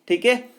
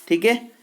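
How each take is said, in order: No difference in how they are said.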